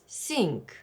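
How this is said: It begins with an s sound.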